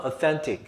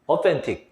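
First: Authentic, second syllable hit harder; stress on second syllable. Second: Authentic with the weight on THEN; stress on second syllable. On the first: Teacher repeating authentic to class, second syllable stressed. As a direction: say authentic with the push on THEN. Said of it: "그 강세가 중요하다고". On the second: Teacher modeling authentic for students, stressing second syllable. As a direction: lean on the middle syllable of authentic. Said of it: "이음절 해볼까". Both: Shown as a demonstration.

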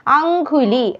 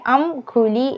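First: അങ്കുലി with a k sound, raised pitch; wrong consonant. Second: അംകുലി split after അം, with g for ക; correct consonant. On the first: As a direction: show the mistaken ങ്ക in അങ്കുലി. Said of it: "ങ്കായ് അല്ല". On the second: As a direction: voice the second part of അംകുലി as guli. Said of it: "ഗായാണ് വരുന്നത്". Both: Shown as a demonstration.

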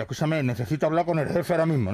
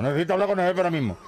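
First: Fast, pressing policeman; urgent. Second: Even faster and higher, almost frantic; more urgent. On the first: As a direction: rush it like an emergency call. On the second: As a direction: rattle it off in a panic. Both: Acted. Policeman radios his boss urgently.

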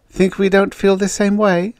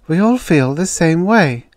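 First: High-pitched indignant challenge; acted annoyance; angry. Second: Higher, louder voice of fellow feeling; acted sympathy, raised voice; sympathetic. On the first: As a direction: snap back at her, voice raised in pitch. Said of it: "said the redhead angrily". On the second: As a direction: commiserate with a friend, pitched up. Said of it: "said sympathetically". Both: A narrator's reading.

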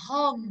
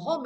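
First: "home" with the corrected vowel, drawn out; corrected reading of home. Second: "home" as the mistaken pronunciation, with a different vowel; wrong reading of home. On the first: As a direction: model "home" slowly as the correction. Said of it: "mà là home". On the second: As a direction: demonstrate the mispronounced "home". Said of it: "khi đọc không phải là home". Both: Shown as a demonstration.

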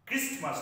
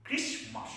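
First: Christmas with the T sounded; wrong pronunciation. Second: Christmas with a silent T, higher; correct pronunciation. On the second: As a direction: say Christmas as KRIS-mus. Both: Shown as a demonstration. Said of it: "Christmas নয়".

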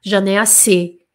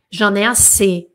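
No difference in how they are said.

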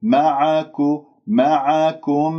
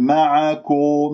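First: معكو and معكم with a thin "ku", not "ko"; light kaf. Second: معكو with a dark, rounded "ko"; over-heavy kaf. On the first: Teacher corrects the heavy kaf: slow, light "ku" in معكم. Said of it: "الكاف مرقق". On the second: Teacher imitates what some say: heavy "ko" ending in معكو. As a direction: thicken the ك of معكو, as a mistake. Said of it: "لا تفخموها". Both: Shown as a demonstration.

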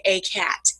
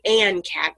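First: "a" said slowly as a full "ay" before "cat"; right article shown. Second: "an" said as a full, stressed "ann" before "cat"; wrong article shown. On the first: Teacher showing what we'd say, slow full "ay". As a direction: draw out "a" as "ay" in "a cat". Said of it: "we'd say a cat". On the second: Teacher showing what we wouldn't say, stress on "an". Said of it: "we wouldn't say an cat". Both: Shown as a demonstration.

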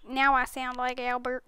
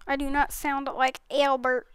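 First: A slight, barely changed Albert voice; trying to sound like Albert. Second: Said in the usual way. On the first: Shown as a demonstration. Gamer showing friends she now sounds like Albert, faint voice shift. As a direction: lightly put on Albert's voice. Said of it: "Now I sound like Albert, kind of".

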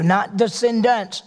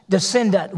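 First: Slow, with weight on the plural descendants; stress on descendants. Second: Descendant said firmly, singular, falling at the end; stress on descendant. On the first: Preacher correcting a misreading, slow stress on descendants. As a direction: lean on descendants, the word being corrected. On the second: Preacher correcting his congregation, firm stress on descendant. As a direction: land hard on the singular descendant. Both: Shown as a demonstration.

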